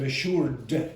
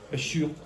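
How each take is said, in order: First: The final D sound is clearly pronounced. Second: The final D sound is left off. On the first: The speaker calls it right. "instead of assured" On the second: The speaker calls it wrong. "get very lazy and not pronounce the D at the end"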